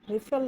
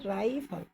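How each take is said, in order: First: The first vowel is a short i sound. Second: The first vowel is the diphthong ai. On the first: The speaker calls it wrong. "रिफल नहीं" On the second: The speaker calls it right. "इसमें diphthong है ये"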